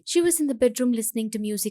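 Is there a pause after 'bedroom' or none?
none. It is said continuously without a pause.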